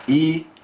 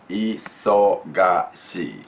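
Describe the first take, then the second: First: Said in the usual way. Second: Isogashi stretched out slowly, each syllable clear; slow, careful isogashi. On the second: Shown as a demonstration. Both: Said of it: "Just we wanna say it".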